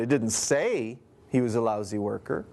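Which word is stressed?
say. The stress is on the word say.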